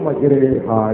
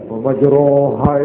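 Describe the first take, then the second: First: The vowel after r leans toward e. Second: The vowel after r is an open a.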